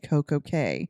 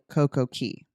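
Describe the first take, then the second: First: The last word rhymes with day. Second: The last word rhymes with see. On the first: It is a pun in the brand name. "the reason we say perfect day Coco K is because it is kind of play on words" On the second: It names the island in general. "if you're just talking about the island in general, it is still Coco Key"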